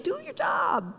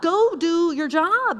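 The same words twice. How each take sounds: First: Very high, soft, sweet coaxing; exaggeratedly gentle, softened voice. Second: Slow, higher-pitched stern order; acted stern command; mean scolding. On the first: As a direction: say it featherlight, high and hushed. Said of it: "He's gently saying". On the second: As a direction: order it sharply, word by weighty word. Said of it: "say it as mean as I'm saying it".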